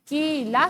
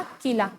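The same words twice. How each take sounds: First: किला said firmly, with a rise; clear reading of a word. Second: किला again, falling and a bit softer; softer repeat. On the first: Teacher reads किला to young students, firm and clear. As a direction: model किला clearly for the class. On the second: Teacher repeats किला to the class, falling and softer. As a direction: let किला drop away on the repeat. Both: Shown as a demonstration. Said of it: "एक बार फिर से शब्दों को पढ़ें".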